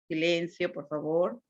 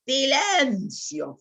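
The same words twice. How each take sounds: First: Said in the usual way. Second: Drawn-out commanding "Silencio" said higher and slowly; loud command. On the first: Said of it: "o en un estado normal". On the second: Shown as a demonstration. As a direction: call "Silencio" out like a strict order. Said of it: "fuerte, puedo gritar". ("Silencio" dicho fuerte y alargado)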